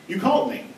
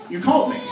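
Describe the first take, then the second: No difference in how they are said.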